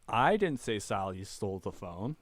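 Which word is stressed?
I. The word 'I' carries the main stress. Someone else said it. "It wasn't me"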